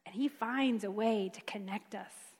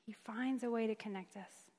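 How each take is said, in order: First: Said in the usual way. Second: Hushed repetition; softer echo. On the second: Shown as a demonstration. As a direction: repeat it much softer.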